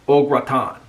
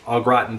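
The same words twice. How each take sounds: First: It is said with a French-like pronunciation. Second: It is said with an American English pronunciation. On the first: This is the original name used in France. The speaker calls it right. "but it's actually au gratin. That's the way you pronounce it" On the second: This is the usual name in the United States. The speaker calls it wrong. "here in the United States, we call it"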